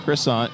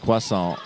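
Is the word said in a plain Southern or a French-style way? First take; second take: plain Southern; French-style. First: It is said in a plain Southern American way. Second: It is said in a fancy French-style way.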